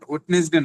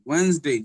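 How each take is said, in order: First: It is said as three syllables, 'wed-nes-day'. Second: It is said as two syllables, 'wenz-day'. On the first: The speaker calls it wrong. "Not ওয়েডনেসডে" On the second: The speaker calls it right. "Sound হবে ওয়েন্স ওয়েন্সডে"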